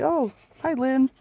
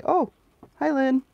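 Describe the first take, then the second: First: High, louder cheery hello; bright greeting. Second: High, louder cheery hello again; repeated greeting. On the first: Imitating her own cheery greeting to Lynn. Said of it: "I'll say". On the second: Mock cheery hello to Lynn forgetting she said it. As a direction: chirp it up high once more. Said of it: "and I'll say". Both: Retold or imitated.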